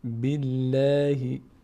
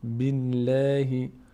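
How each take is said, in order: Both takes have the same delivery.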